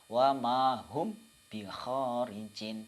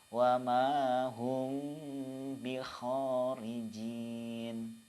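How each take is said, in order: First: The m is cut short without a nasal hum. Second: The m is held with a two-beat nasal hum. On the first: The speaker calls it wrong. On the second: The speaker calls it right.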